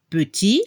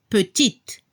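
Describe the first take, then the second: First: PETIT with silent final t; masculine French petit. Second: PETITE with a crisp final t; feminine French petite. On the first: French teacher giving the masculine example, PETIT with silent t. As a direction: end PETIT on the open i, no t. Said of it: "Al masculino". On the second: French teacher showing the feminine, PETITE with audible final t. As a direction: sound the t that closes PETITE. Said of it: "Se escucha la T al final". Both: Shown as a demonstration.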